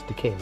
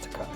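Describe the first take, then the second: First: The last syllable sounds like 'kay'. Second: The last syllable sounds like 'kye'. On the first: The speaker calls it right. "It's Takei" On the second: The speaker calls it wrong. "not Takai. Takai means rich"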